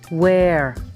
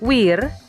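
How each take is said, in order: First: The vowel is an 'air' sound. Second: The vowel is an 'eer' sound. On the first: The speaker calls it right. "Padahal cara bacanya adalah wear" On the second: The speaker calls it wrong. "seringkali dibaca wir"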